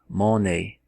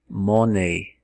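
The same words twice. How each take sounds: The two takes are said the same way.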